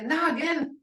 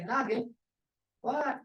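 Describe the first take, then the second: First: Noggin said with a higher rising tune; casual tone. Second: "Noggin, what?" said softer with a short rise on what; other tone. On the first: Teacher showing students a casual reply tone, higher and rising. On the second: Teacher showing students the other reply tone, softer. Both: Shown as a demonstration. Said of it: "that tone has a lot to do with this".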